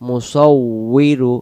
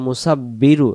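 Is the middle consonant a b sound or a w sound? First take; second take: w sound; b sound. First: The middle consonant is a w sound. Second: The middle consonant is a b sound. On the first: The speaker calls it right. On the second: The speaker calls it wrong.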